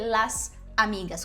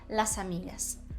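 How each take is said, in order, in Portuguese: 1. Uma pausa separa as duas palavras. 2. O s final se liga à vogal seguinte. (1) "com essa pausa no meio" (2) "a gente uniu o S do las com o A do amigas"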